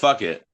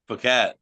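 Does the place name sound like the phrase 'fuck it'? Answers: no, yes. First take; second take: yes; no. First: The name sounds like the phrase 'fuck it'. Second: The name does not sound like 'fuck it'. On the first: It is a joking nickname. "We call it fuck it" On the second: It is the proper pronunciation. "It's pronounced Phuket"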